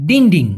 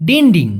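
Both takes have the same delivery.

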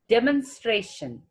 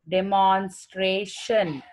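First: The m and n are said together, no vowel. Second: A vowel is heard between the m and n. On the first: The speaker calls it right. "M and N together. There is no vowel in that" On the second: The speaker calls it wrong. "We usually pronounce it as demonstration"

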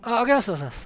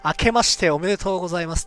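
First: It is said weakly and half-heartedly. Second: It is said crisply and energetically.

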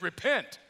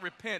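First: It is said forcefully, like an exclamation. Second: It is said calmly and plainly.

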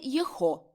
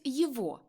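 First: The middle consonant is an h sound. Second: The middle consonant is a v sound. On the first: The speaker calls it wrong. "і не «єхо»" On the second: The speaker calls it right. "В інтелігентній мові вимовляють «єво»"

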